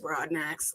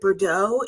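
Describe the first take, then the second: First: The name is said plainly, just as spelled. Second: The name gets a fancy French-sounding ending. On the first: The name is kept simple. The speaker calls it right. "pronounced the way it's spelled" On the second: The name is treated as something exotic. The speaker calls it wrong. "people want to give it some fancy like name"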